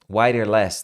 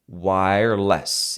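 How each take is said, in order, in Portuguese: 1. O acento está na última sílaba. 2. O acento está na primeira sílaba. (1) "não" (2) "você diminui o less"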